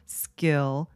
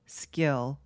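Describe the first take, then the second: Both takes have the same delivery.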